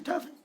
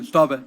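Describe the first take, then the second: First: It is said softly and timidly. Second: It is said loudly and confidently.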